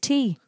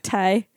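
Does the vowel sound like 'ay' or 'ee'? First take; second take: ee; ay. First: The vowel sounds like 'ee'. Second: The vowel sounds like 'ay'. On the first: The speaker calls it right. "It's just tea" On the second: The speaker calls it wrong. "It's not tay"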